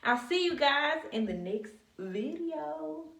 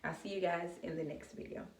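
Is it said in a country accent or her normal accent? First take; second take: country; normal. First: It is said in a country accent. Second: It is said in her normal accent.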